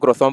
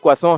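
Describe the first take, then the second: First: It sounds like 'kro-sent', ending in a clear t. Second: It sounds like 'kwa-son', with a nasal ending. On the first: The speaker calls it wrong. "हम उसको क्रोissant बोलते हैं" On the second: The speaker calls it right. "क्रोissant का सही प्रोनंसिएशन क्वासों है"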